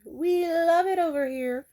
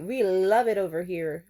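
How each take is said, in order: First: Higher, louder, slow sing-song delight; mock delighted. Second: Said in the usual way. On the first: Shown as a demonstration. Girlfriend spoiled by her man, gushing in a sing-song. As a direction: gush it like a thrilled girlfriend. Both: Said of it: "repeated differently".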